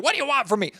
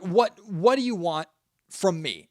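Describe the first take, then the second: First: Pitched much higher, a fed-up mock whine; mock exasperated. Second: Sincere, unhurried ask, nothing defensive; genuine question. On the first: Host mocking a fed-up tone he isn't using, higher and exasperated. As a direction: toss it off like a defensive, put-upon host. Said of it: "I'm not being like". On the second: Podcast host sincerely asking his listeners, earnest and plain. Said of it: "And I'm being genuine". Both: Shown as a demonstration.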